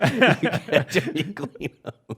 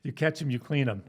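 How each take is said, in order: First: Slow high laughing echo. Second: High laughing saying. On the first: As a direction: draw it out slowly while laughing. Echoing saying, slow laughing. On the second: Quoting cop saying, laughing. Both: Retold or imitated.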